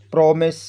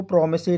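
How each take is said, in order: First: प्रॉमिस with a silent final e; प्रॉमिस, no vowel after the s; correct pronunciation demo. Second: प्रॉमिस ही run together as "promise-ay"; प्रॉमिस ही, extra vowel after the s; wrong pronunciation demo. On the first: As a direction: model प्रॉमिस, ending on the s. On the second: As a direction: misread promise with the final e sounded. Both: Shown as a demonstration. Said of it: "उसको प्रॉमिस ही नहीं बोलेंगे".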